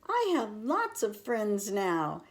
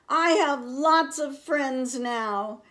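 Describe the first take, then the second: First: It is said at a quiet, normal volume. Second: It is said very loudly.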